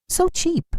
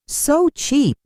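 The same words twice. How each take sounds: First: Sneering. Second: Malicious sneer. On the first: Emily sneering at party. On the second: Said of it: "a more malicious comment". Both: A narrator's reading.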